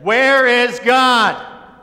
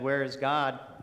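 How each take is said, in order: First: It is said in a loud, booming voice. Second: It is said at normal volume.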